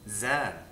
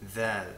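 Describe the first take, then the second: First: It begins with a z sound. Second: It begins with a th sound. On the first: This is the Egyptian pronunciation. "it's not pronounced as a th, th, ... It's z" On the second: This is the Modern Standard Arabic pronunciation. "Dhal is the name of this letter in Fusha"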